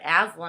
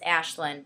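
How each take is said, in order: First: The name is said with an 's' sound. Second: The name is said with an 'sh' sound. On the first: The speaker calls it wrong. "when I first saw it, I was like, Aslan" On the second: The speaker calls it right. "so no, but it's Ashlyn"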